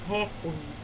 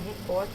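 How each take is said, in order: First: The stress is on the first syllable. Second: The stress is on the second syllable. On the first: The speaker calls it wrong. "A gente tem a mania de dizer recorde. A pronúncia recorde do inglês" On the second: The speaker calls it right. "a pronúncia no português é recorde porque ela não tem acento"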